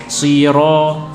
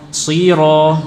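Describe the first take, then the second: No difference in how they are said.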